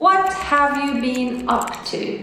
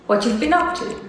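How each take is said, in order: First: Every word is said clearly and separately. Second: The first words are shortened and run together.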